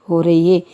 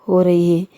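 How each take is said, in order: The two takes are said the same way.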